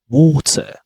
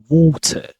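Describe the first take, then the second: Both takes have the same delivery.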